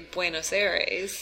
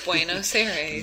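First: It is said in a plain American accent. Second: It is said as an exaggerated imitation of another speaker. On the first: This is how the speaker normally says it. "what I would say Buenos Aires. Because I'm American" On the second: Someone else says it this way. "say it like Trump says it"

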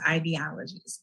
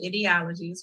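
First: The first syllable does not sound like 'idiot'. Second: The first syllable sounds like the start of 'idiot'. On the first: The speaker calls it right. "it's pronounced ideologies" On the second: The speaker calls it wrong. "Some people want to pronounce it ideologies, which I just think is funny because sometimes it can be idiotic"

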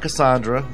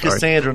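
First: The name is said in a fancy, posh way. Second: The name is said in a plain, unfancy way. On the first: The speaker calls it wrong. "not Cassandra" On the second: The speaker calls it right. "It's Cassandra, There's no bouginess behind it"

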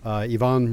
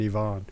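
First: The name is said the English way. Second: The name is said the French way.

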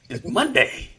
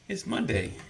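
First: It is said with lots of feeling. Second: It is said flatly, without much feeling.

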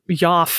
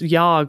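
First: The word ends with an f sound. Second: The word ends with a hard g sound. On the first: "or yaf, maybe" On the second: "I thought it was yog"

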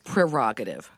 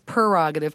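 First: The word begins with the sound 'pre'. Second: The word begins with the sound 'per'. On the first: "technically it's prerogative" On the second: "everybody really says prerogative"

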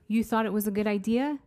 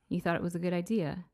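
First: It ends with a rising question tune. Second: It ends with a falling statement tune.

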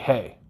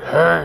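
First: It is said in a normal voice. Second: It is said in a deep, terrifying voice.

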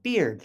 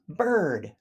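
First: The vowel sounds like the vowel in 'beard'. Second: The vowel sounds like the vowel in 'her'. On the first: The speaker calls it wrong. "many people pronounce it beard" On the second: The speaker calls it right. "bird, B-I-R-D"

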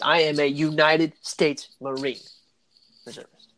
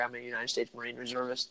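First: It is said in a proud, forceful voice. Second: It is said in a casual, matter-of-fact voice.

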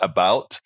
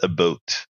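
First: Said with a standard American vowel sound. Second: Said with a raised, Canadian-style vowel sound. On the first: "They don't say about" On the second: "That's how the Canadians say about"

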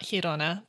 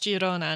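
First: The name is said with Spanish pronunciation. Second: The name is said with Catalan pronunciation. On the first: The speaker calls it wrong. "not Girona, ... not Spanish" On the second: The speaker calls it right. "it is pronounced Girona, ... because it is Catalan"

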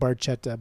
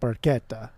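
First: It is read out as English spelling suggests. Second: It is said with an Italian pronunciation. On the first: The speaker calls it wrong. "If you're reading it phonetically, it's not it's spelled barchetta" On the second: The speaker calls it right. "but it's pronounced barchetta"

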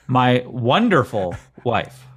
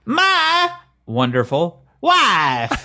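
First: It is said in his normal voice. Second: It is said in a Borat impression.

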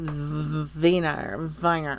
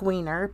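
First: The name is said with a German pronunciation. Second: The name is said with an English reading. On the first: "if you pronounce it the German way" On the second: "It looks like Wiener"

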